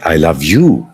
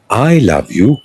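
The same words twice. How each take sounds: First: The stress falls on the word you. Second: The stress falls on the word I. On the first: You, not someone else, are the one I love. "whom do you love? Then I say" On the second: It is me, not someone else, who loves you. "who loves me? That's the question. Then I say"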